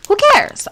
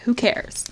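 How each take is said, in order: First: High, loud Who cares?. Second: Said in the usual way. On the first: Real, not acted. Streamer to chat, loud defiant Who cares?. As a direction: shout Who cares? with a jump up.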